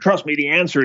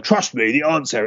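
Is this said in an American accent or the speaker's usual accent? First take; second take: American; usual. First: It is said in an American accent. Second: It is said in the speaker's usual accent.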